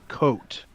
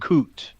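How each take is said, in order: First: The vowel sounds like the one in 'coat'. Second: The vowel sounds like the one in 'coot'. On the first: The speaker calls it right. "Coat, not Coot" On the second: The speaker calls it wrong. "not Coot"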